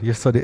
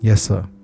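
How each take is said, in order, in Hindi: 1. यह बहुत उत्सुक लगता है और संयमित नहीं है। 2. यह शांत और आत्मविश्वास से भरा लगता है, चेहरे पर मुस्कान के साथ। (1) "ऐसे नहीं yes sir yes sir, it will not look good" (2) "तो आपने देखा मेरे स्माइल भी थी, कॉन्फिडेंस भी था।"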